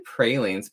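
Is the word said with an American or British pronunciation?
American. The word is said with an American pronunciation. This is the speaker's own usual way. "I say pralines"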